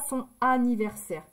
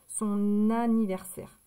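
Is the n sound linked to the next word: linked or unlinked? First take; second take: unlinked; linked. First: The n is not linked to the next vowel. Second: The n is linked to the next vowel. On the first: The speaker calls it wrong. "On ne dit pas son anniversaire" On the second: The speaker calls it right. "On fait la liaison, c'est plus joli à l'oreille"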